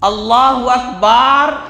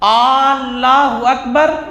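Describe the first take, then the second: First: The vowel after the b is drawn out. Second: The first vowel at the start is drawn out. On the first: "ये भी गलत है" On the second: "ये भी गलत है"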